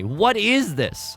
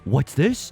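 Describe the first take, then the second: First: It is said in his normal voice. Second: It is said in a Jack Skellington impression.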